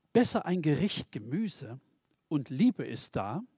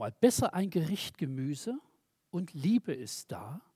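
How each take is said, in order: No difference in how they are said.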